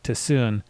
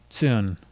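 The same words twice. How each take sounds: First: The t and s are split into two sounds. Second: The t and s blend into one sound. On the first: The speaker calls it wrong. "You should not be breaking it into two sounds like tsun" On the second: The speaker calls it right. "It should just be tsun"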